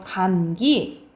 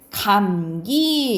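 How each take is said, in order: First: The consonant before g is an ng sound. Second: The consonant before g is an m sound. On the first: The speaker calls it wrong. "이렇게 되는 거고" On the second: The speaker calls it right. "감기가 아니고"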